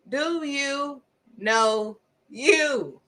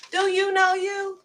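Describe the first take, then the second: First: Each word drawn out with pauses; slow emphatic question. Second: Pitched way up and held there; pointed high question. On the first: Preacher pressing listeners to know themselves, slow and emphatic. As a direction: spell out DO, YOU, KNOW, YOU slowly, word by word. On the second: Preacher asking listeners if they know themselves, high and pointed. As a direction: ask it high, pressing the listener. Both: Real, not acted.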